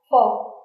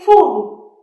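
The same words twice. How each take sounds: First: The vowel is short and clipped. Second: The vowel is long and drawn out. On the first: The speaker calls it right. "You want to say a short u. ... So that's the correct pronunciation" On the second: The speaker calls it wrong. "You don't say full. ... the long u"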